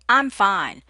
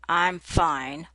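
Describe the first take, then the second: First: It is said in a bright, upbeat tone. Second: It is said in a cold, sad tone. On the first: The person is really fine. "in an upbeat tone" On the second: The person may be angry, sad, or want to be alone. "in a cold or sad tone"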